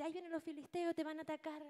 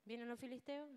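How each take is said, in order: First: High urgent alarm to wake him; alarmed call. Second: Said in the usual way. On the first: Acted. Dalila despierta a Sansón. (Dalila despierta a Sansón, grito agudo de alarma)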